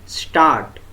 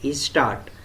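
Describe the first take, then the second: First: The word starts directly with the s sound. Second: A short vowel comes before the s sound. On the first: "words begin with two consonant letters like" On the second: "They will say"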